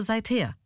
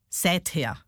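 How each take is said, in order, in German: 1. Die Betonung liegt auf der zweiten Silbe. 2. Die Betonung liegt auf der ersten Silbe. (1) "Und das heißt aber" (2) "Wie viele sagen"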